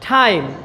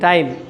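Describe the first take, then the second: First: The t is soft with a puff of air. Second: The t is hard and without a puff of air. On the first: This is the English pronunciation. The speaker calls it right. "ঠ, একেবারে ঠ না, থ" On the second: This is how Bengali speakers usually say it. The speaker calls it wrong. "আমরা তো ট বলি টাইম, আমরা যারা বাংলা ভাষী তারা আমরা টাইম বলি"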